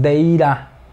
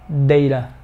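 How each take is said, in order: First: The second syllable has a full 'ra' vowel. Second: The second syllable has a weak schwa vowel. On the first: The speaker calls it wrong. "No digas deira, porque no es ra" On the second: The speaker calls it right. "La siguiente sílaba es simplemente schwa"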